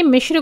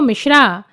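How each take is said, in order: First: The name ends without a final vowel. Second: The name ends with a long 'aa' vowel. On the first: The speaker calls it right. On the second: The speaker calls it wrong.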